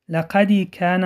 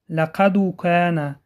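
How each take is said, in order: First: A short i vowel follows the d. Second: A short u vowel follows the d. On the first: "یگان حرکت داخل می کند، این خطا می باشد" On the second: "یگان حرکت داخل می کند، این خطا می باشد"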